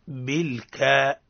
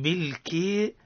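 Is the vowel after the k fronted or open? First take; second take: open; fronted. First: The vowel after k is a full open a. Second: The vowel after k drifts toward a fronted e. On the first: The speaker calls it right. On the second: The speaker calls it wrong.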